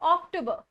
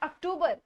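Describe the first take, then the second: First: The word begins with a stressed 'ok' sound. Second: The word begins with an 'ak' sound. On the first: The speaker calls it right. "ओ पे ज्यादा जोर डालना है" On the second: The speaker calls it wrong. "Not अक्टूबर"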